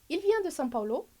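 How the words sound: The pitch rises at the end. It is a question. "Primeiro interrogação"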